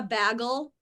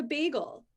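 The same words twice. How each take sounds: First: "bagel" said with a short flat A, like "baggle"; mispronounced "bagel", short A; wrong bagel. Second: "bagel" with a long A, "BAY-gel"; "bagel" with the proper long A; right bagel. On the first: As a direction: say "bagel" as "BAG-el" with the A of "bag". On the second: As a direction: stretch the A in "bagel" into "ay". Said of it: "it's actually a long A sound". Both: Shown as a demonstration.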